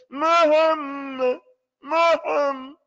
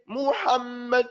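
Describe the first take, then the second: First: High, loud "Muhammad" with its ending swallowed; mispronounced, exaggerated. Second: "Muhammad" with each vowel clearly opened; correct pronunciation. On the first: Teacher mimics how the unstudied one says it, exaggerated mispronunciation. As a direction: honk "Muhammad" as "Muham", mouth hardly opened. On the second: Teacher shows what the unstudied reader doesn't say, correctly pronounced. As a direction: sound every vowel of "Muhammad" in full. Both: Shown as a demonstration. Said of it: "That's how he says it".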